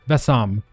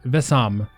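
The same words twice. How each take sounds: No difference in how they are said.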